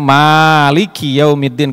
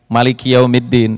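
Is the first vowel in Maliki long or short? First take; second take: long; short. First: The first vowel of Maliki is long. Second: The first vowel of Maliki is short. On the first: "madhab Syafi'iyah bacanya" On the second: "bisa dibaca nggak dipanjangin"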